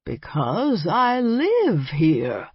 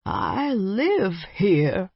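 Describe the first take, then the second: First: Put-on slow, falling stress on live in the old vampire voice; the vampire repeating himself stubbornly; insisting. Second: Put-on slow old vampire voice with a rising tune on live; the vampire declaring his home; proclaimed. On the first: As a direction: lean hard on live to insist. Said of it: "Beauregard insisted". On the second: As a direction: announce it grandly and slowly. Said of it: "he proclaimed". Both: A narrator's reading.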